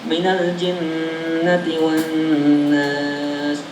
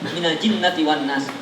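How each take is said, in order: First: The nasal hum is held for two beats. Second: The nasal hum is dropped, merged without nasality. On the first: The speaker calls it right. "gunanya di situ, di hidung, dua harokat" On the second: The speaker calls it wrong. "itu idgham doang. Mana gunanya?"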